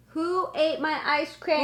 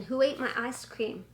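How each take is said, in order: First: Raised voice calling to someone away; yelling across the room. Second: Said in the usual way. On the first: Real, not acted.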